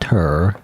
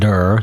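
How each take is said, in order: First: The word begins with a hard t sound. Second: The word begins with a hard d sound. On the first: "not ter" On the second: "not der"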